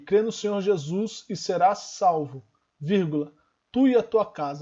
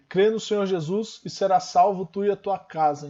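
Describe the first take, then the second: First: There is a break after salvo. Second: It runs on without a pause after salvo.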